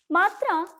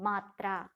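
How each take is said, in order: First: मात्रा repeated higher and louder, hammered home; emphatic repeat. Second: Said in the usual way. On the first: Shown as a demonstration. Teacher repeats the answer to children, stressing it strongly. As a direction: drive मात्रा home, high and loud.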